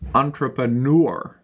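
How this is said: It is said in an American accent. "But in American English, they will say"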